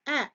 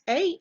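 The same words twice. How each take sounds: First: The letter is said with a short vowel sound. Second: The letter is said with a long vowel sound. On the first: "Alligator begins with short vowel sound" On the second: "Angel begins with long vowel sound"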